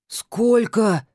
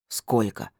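First: «Сколько?» выше и громче, в шоке; выкрикнуть «Сколько?» от изумления; ошарашенно. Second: Сумрачно, тише обычного; буркнуть «Сколько?» недовольно; хмуро. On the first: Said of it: "вытаращился он". (ошарашенный выкрик «Сколько?») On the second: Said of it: "хмуро спросил Скороход". (хмурое «Сколько?») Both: Acted.

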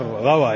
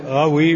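First: غوى said with an a vowel after the waw; غوى with fatha, not kasra. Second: غوي said with an i vowel after the waw; غوي with kasra, not fatha. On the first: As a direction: say غوى as "ghawa", ending in a. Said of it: "يعني بالفتح". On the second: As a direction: say غوي as "ghawi", ending in i. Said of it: "بكسر الواو". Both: Shown as a demonstration.

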